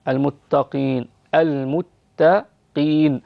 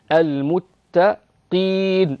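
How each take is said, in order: First: المتقين with light ت and lowest-degree ق; المتقين, thin ت, ق only slightly heavy, slowly. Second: المتقين with an over-heavy ق, slowly; overdone heavy qaf. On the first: Teacher modeling المتقين correctly. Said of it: "التاء مرققة". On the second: Teacher showing the wrong over-heavy ق. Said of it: "لا تتكلفي تفخيمها فتقولي المتقين". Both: Shown as a demonstration.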